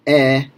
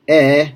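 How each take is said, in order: First: E said closed, like the ee in need; e with lips spread tight; closed e sound. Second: E said open, mouth wide. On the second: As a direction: open E sound. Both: Shown as a demonstration. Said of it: "a difference between, uh, e and e".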